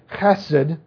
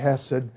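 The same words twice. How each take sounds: First: It starts with a raspy sound from the throat. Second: It starts with a plain, soft h sound. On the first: This is the original way to say the word. "It's really hesed" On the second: This is a simpler way that is still acceptable. "you don't have to pronounce it that way, you can just say hesed"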